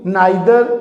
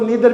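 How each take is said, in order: First: The first syllable sounds like 'nye'. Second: The first syllable sounds like 'nee'. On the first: "नाइदर भी correct pronunciation है" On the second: "कुछ इसको नीदर भी कहते हैं"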